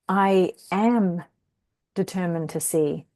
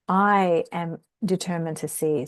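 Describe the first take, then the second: First: The stress falls on the word am. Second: The stress falls on the word I. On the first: There is willingness and conviction to see. "We can put the emphasis on the am" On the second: The small self is the one not seeing. "with the emphasis on the I"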